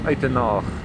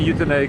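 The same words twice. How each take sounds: First: The name is said with an Afrikaans pronunciation. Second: The name is said with an English pronunciation. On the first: "in the Afrikaans tongue it is known as Uitenhage" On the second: "that is the English pronunciation"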